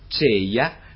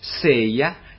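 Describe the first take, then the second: First: It begins with a c sound. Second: It begins with an s sound. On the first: "«c»" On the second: "«s»"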